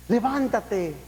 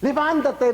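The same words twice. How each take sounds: First: Said in the usual way. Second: Raised levántate. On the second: Acted. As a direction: call out "Levántate" with force. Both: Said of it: "Levántate repeated".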